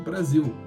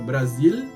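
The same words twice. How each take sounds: First: The final sound is a U-like vowel. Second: The final sound is a clear L. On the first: "virou Brasil" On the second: "em vez de ser falada Brasil"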